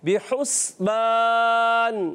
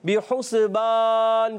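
First: The s sound has no vowel after it. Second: The s sound is followed by a vowel. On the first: The speaker calls it right. "سین کو ساکن رکھیں گے, ہلائیں گے نہیں ... پڑھنا ہے بحسبان" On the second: The speaker calls it wrong. "بعض بچے پڑھتے ہیں بحسبان ... یہ غلط ہے"

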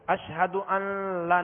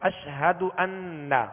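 First: The noon turns toward an L sound. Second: The noon is clear and held nasally. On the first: The speaker calls it wrong. "اشہد ان لا نہیں پڑھیں گے" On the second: The speaker calls it right. "ناک میں آواز لے جا کر ایک الف کی مقدار ٹھہریں گے"

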